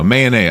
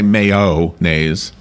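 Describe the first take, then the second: First: The middle is said with an 'a' sound. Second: The middle is said with an 'o' sound. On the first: "I say it like an A" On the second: "I don't say mayo-naise"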